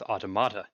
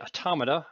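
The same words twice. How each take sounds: First: The stress falls on an unusual syllable. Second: The stress falls on the usual syllable. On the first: The speaker calls it wrong. "I put the emphasis on the wrong syllable and came out with automata" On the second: The speaker calls it right. "when I was trying to say automata"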